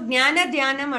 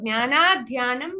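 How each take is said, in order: First: The final vowel of the first word is short. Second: The final vowel of the first word is long. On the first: The speaker calls it wrong. "నువ్వు జ్ఞాన ధ్యానం అంటున్నావు" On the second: The speaker calls it right. "ఇక్కడ జ్ఞానా ధ్యానం నాకి దీర్ఘం ఉండాలి"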